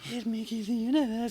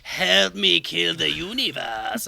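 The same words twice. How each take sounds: First: It is said in a plainer, less exaggerated voice. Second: It is said in an exaggerated put-on voice.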